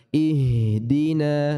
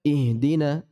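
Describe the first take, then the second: First: The h sound is held a little longer. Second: The h sound is short and not held. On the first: The speaker calls it right. "Tahan sedikit" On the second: The speaker calls it wrong. "Bukan ihdina, enggak seperti itu"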